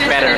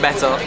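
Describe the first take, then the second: First: It is said in an American accent. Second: It is said in a Trinidadian accent. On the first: "America we have to say better" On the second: "Like home we say better"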